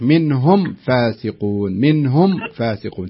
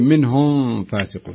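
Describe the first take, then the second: First: The m sound is fully and clearly pronounced. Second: The m sound is muffled before the f. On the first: The speaker calls it right. "الصحيح منهم فاسقون تظهرين الميم كاملة خالصة" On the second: The speaker calls it wrong. "أنت تخفين تقولين"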